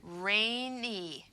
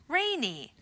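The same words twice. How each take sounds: First: Rainy drawn out slowly; rainy blended slowly; slow blending. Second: Said in the usual way. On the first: Shown as a demonstration. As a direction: glide through rainy slowly. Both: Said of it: "two-syllable word with two vowel sounds".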